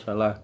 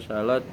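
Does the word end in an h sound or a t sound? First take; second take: h sound; t sound. First: The word ends with an h sound. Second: The word ends with a t sound. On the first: This is the Arabic reading at a pause. "Apabila dalam keadaan wakaf dibaca ha, seperti salatun dibaca salah" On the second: This is the local borrowed reading. "Namun dalam bahasa Nusantara dibaca salat"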